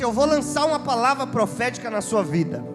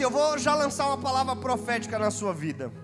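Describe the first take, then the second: First: It is said forcefully, with strong energy. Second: It is said weakly, without much energy. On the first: The speaker calls it right. "A palavra profética se lança com vontade" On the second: The speaker calls it wrong. "não é assim que lança a palavra profética"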